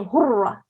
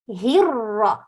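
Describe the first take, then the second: First: The first vowel is a u sound. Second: The first vowel is an i sound. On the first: The speaker calls it wrong. "Don't say hurra" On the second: The speaker calls it right. "So he and ra"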